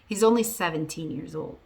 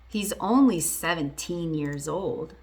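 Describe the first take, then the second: First: The sentence is spoken faster. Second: The sentence is spoken slowly. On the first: "I'll say it faster this time" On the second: "I did say it a little bit slowly"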